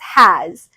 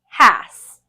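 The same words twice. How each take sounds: First: The final consonant is a buzzing z sound. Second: The final consonant is a hissing s sound. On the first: The speaker calls it right. "S that makes the Z sound" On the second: The speaker calls it wrong. "we know has isn't a word"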